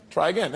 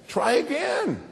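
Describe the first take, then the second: First: Said in the usual way. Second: Higher, drawn-out encouragement; patient parent. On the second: Retold or imitated. Parent urging the kid on, higher and drawn out. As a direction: stretch it out higher, gently insisting.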